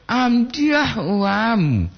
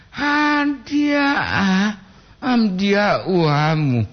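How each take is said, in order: First: Very slow, higher, drawn-out heartfelt reading; with full feeling. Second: "Amdiah" cried out much higher, then "amdiah uamu" slow; full of feeling. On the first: Streamer reads a viewer's line aloud, very slow and heartfelt. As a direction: stretch out "Amdiah uam" slowly and higher, as if moved. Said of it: "dengan penuh perasaan aku". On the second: Streamer rereads the line with exaggerated emotion, crying tone. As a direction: wail "Amdiah" high like a sob, then slow down. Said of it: "Penuh perasaan". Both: Shown as a demonstration.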